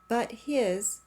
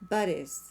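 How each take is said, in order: First: The h sound in 'his' is pronounced. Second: The h sound in 'his' is dropped.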